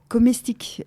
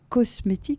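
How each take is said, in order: First: The word begins with the syllable 'com'. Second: The word begins with the syllable 'cos'. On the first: The word was unfamiliar to those who said it. "mais on disait comestique" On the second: This is the usual word. "on ne dit pas cosmétique"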